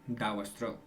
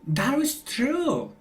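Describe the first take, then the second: First: It is said with flat, plain intonation. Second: It is said with lively, exaggerated intonation. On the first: This is how Spanish speakers say it. "In Spanish you say" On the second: This is how English speakers say it. "in English we say... we exaggerate a lot"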